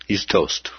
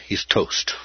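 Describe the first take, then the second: First: Said in the usual way. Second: Hushed aside; whispered aside. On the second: Acted. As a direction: drop to a whisper.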